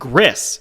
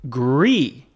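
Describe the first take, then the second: First: The name is said as English spelling reads. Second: The name is said with a French pronunciation. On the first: "You may see that and pronounce it Gris" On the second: "I believe it's the French word for gray"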